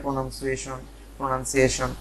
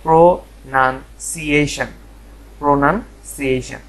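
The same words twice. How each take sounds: First: প্রোনাউন্সিয়েশন run together as "pronansuieshon", ending in "shon"; rejected mispronunciations. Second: প্রোনাউন্সিয়েশন slowly in parts, "pro, nan, si-ei-shen"; প্রোনাউন্সিয়েশন broken up, ending "ei-shen"; correct pronunciation. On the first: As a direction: say প্রোনাউন্সিয়েশন the mistaken way, "pro-nan-sie-shon", unbroken. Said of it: "এরকম কিছু না". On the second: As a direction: drill প্রোনাউন্সিয়েশন slowly, syllable by syllable. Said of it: "এর সঠিক যে উচ্চারণটা". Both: Shown as a demonstration.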